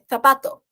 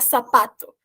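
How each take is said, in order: First: The word starts with a lisped th sound. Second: The word starts with a plain s sound. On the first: The speaker calls it right. "é sapato" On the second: The speaker calls it wrong. "que é diferente de falar sapato"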